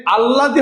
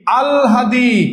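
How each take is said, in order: First: আল্লাদি as al-la-di, doubled l, no h; common mispronunciation. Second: আল হাদি with a clear h after l, higher pitch; correct pronunciation. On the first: Teacher showing the form to avoid, common mispronunciation. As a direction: run আল্লাদি together with a double l. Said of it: "আল্লাদি হবে না". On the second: Teacher giving students the right form, correct pronunciation. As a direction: split it as আল, then হাদি, pitched up. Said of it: "হবে কি?". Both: Shown as a demonstration.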